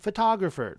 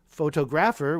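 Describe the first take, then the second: First: The stress is on the second syllable. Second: The stress is not on the second syllable. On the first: The speaker calls it right. "we say photographer" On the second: The speaker calls it wrong. "we don't say photographer"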